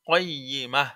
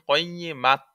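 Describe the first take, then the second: First: The word ends with a soft h sound. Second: The word ends with a t sound. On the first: The speaker calls it right. "হবে কও, কয়িমা" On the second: The speaker calls it wrong. "কিন্তু যদি বলেন কয়িমাত, ... তাহলে কিন্তু হবে না"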